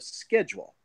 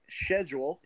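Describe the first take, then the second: First: It is said with an American accent. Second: It is said with a British accent.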